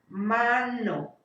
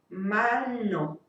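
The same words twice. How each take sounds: First: The n is made against the teeth. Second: The n is made at the hard palate.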